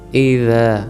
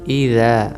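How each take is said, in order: First: The consonant is soft, tongue tip at the teeth. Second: The consonant is soft, tongue tip at the teeth.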